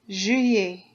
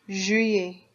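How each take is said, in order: No difference in how they are said.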